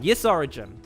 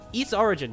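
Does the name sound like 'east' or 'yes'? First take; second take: yes; east. First: The name sounds like the word 'yes'. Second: The name sounds like the word 'east'. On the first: "I'm not gonna change my pronunciation today" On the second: "I could probably say east"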